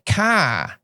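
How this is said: It is said in a Boston accent. "But in Boston say car"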